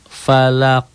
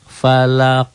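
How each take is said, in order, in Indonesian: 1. Kata itu berakhir dengan bunyi q yang memantul. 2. Kata itu berakhir dengan bunyi q yang memantul.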